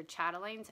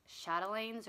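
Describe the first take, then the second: First: "chatelaines" starting with CH as in "chat room"; hard CH pronunciation. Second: "chatelaines" starting with a soft SH sound; soft SH pronunciation. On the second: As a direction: say "chatelaines" as SHAT-uh-lanes. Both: Shown as a demonstration. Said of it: "I've seen it pronounced both ways".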